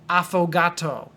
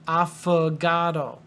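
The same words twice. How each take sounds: First: The first vowel is a full 'o' sound. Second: The first vowel is a reduced 'uh' sound. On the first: The speaker calls it wrong. "not like that" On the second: The speaker calls it right. "Even though it's an O, you can say uh"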